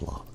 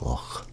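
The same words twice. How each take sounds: First: The word ends with a hard k sound. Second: The word ends with a throaty ch sound. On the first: The speaker calls it wrong. "everybody says Loch" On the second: The speaker calls it right. "when it's Loch"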